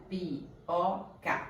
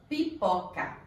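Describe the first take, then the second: First: "pipoca" softly broken into pi, po, ca; "pipoca" in three slow, distinct beats; split into syllables. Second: Said in the usual way. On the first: Shown as a demonstration. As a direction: slowly separate each syllable of "pipoca". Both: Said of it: "Se eu separar as sílabas de pipoca".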